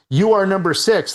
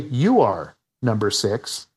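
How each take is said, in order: First: It runs on without a break after 'are'. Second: It has a break after 'are'. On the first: The listener is told their number is six. "instead of saying" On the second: The listener is told they are number one. "they change the inflection"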